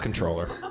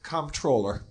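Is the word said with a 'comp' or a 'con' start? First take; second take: con; comp. First: The word begins with a 'con' sound. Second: The word begins with a 'comp' sound. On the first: The speaker calls it right. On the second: The speaker calls it wrong.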